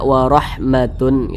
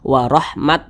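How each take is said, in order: First: The word ends with a full -tun syllable. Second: The word ends with a clipped t sound. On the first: "Tidak warahmatun gitu" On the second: "Jangan dibaca warahmat"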